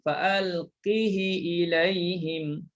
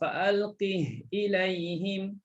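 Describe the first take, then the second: First: A short i vowel follows the h. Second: The first word ends on a bare h sound. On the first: This follows the Qalun reading. "ha berbaris di bawah tapi tanpa mad" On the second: This follows the Hafs reading. "Bagi bacaan Hafs matikan ha"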